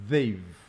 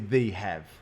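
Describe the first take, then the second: First: The two words are contracted into one syllable. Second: The two words are said separately in full. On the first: The speaker calls it right. "Connect it, contract it" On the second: The speaker calls it wrong. "Don't say they have"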